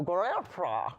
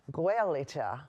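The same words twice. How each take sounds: First: Gaelta mumbled as if dentures were out; mock toothless mumble. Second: Said in the usual way. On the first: Joking about dentures, says Gaelta in a mock toothless mumble. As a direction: say Gaelta gummy, with no teeth in. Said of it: "You just take 'em out and go". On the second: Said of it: "I liked Joanne's, uh, Irish terminology".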